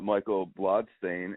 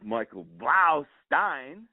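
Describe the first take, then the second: First: The surname starts with the sound 'blood'. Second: The surname starts with the sound 'blau'. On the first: The speaker calls it wrong. "I said it wrong again" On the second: The speaker calls it right. "There you go"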